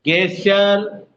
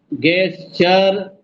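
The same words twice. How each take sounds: First: गेस्चर said very slowly, syllable by syllable, with a hard k at the start; गेस्चर drawn out slowly with a k-like start; slow pronunciation demo. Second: गेस्चर stretched out with ges-sh-ur sounds; careful slow pronunciation. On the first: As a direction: sound out गेस्चर slowly for the class. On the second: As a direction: model गेस्चर slowly and clearly. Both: Shown as a demonstration. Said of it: "जी का उच्चारण पूछ रहे हैं".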